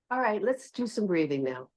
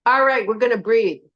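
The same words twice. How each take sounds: First: Gentle, hushed invitation; soft invitation. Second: Higher, firm brusque instruction; brusque announcement. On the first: Yoga teacher showing the kinder tone to her class, soft and gentle. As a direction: invite them softly into breathing. Soft take of the same instruction. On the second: Yoga teacher contrasting tones for the class, brusque instruction. Tart take of breathing instruction. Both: Shown as a demonstration.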